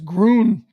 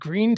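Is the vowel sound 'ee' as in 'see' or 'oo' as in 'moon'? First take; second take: oo; ee. First: The vowel sounds like 'oo' in 'moon'. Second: The vowel sounds like 'ee' in 'see'. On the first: The speaker calls it wrong. "To my Midwestern sensibility, that's Groon" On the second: The speaker calls it right. "Is it Green, Texas? It's green, isn't it?"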